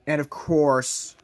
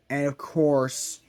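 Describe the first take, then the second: No difference in how they are said.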